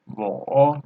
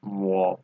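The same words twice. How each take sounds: First: 我 drawn out, dipping then rising; slow 我 with the whole third-tone dip and lift; full third tone. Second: 我 kept low, without the final rise; half third tone. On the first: Teacher contrasting two forms, 我 in full third tone. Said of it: "third tone, but". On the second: Teacher showing 我 before 不, in half third tone. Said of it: "it's half third tone". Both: Shown as a demonstration.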